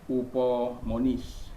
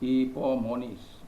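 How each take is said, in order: First: The word begins with an 'oo' vowel. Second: The word begins with an 'ee' vowel. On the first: The speaker calls it wrong. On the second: The speaker calls it right. "ipsilon itu dibaca i"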